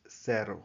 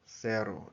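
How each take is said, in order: No difference in how they are said.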